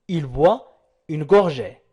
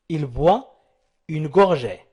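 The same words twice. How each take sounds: The two takes are said the same way.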